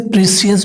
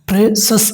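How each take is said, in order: First: The ending is said as two syllables, 'see-us'. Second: The ending is said as one syllable, 'sus'. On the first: The speaker calls it wrong. "इसे प्रेसियस भी बोलता है दोस्तों, जो कि एक सही उच्चारण नहीं माना जाता है।" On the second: The speaker calls it right. "प्रेसस इसका सही उच्चारण है।"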